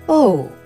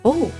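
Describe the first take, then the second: First: It sounds disappointed. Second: It sounds confused.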